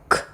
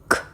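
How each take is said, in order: Both takes have the same delivery.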